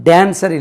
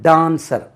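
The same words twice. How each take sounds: First: The first vowel is a short a sound. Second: The first vowel is a long aa sound. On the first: The speaker calls it wrong. "டான்சர் இல்லாது" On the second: The speaker calls it right. "டான்ஸ் என்று உச்சரிக்கணும்"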